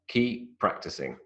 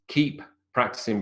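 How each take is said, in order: First: Only one p sound is pronounced. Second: Two separate p sounds are pronounced.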